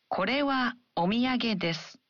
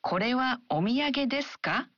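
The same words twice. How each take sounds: First: Falling tune on desu; affirmative, falling finish; statement. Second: Ka rises at the end; question, rising on ka. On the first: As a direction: let desu drop at the end. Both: Shown as a demonstration. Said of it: "double check an affirmative sentence and a question".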